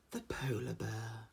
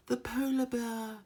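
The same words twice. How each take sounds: First: Soft, slow mock nature presenter; hushed wildlife-film voice, lightly done; documentary narrator. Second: "polar bear" jumps much higher, slow and drawn out; documentary narrator. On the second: Retold or imitated. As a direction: sing "The polar bear" up high like an awed presenter. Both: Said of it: "the one there he goes".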